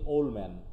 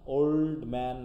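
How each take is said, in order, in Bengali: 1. 'old'-এর শেষের d বাদ দেওয়া হয়। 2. 'old'-এর শেষের d উচ্চারণ করা হয়। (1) "হচ্ছে কি ওল্ড ম্যান" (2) "ওল্ড ম্যান না বলে"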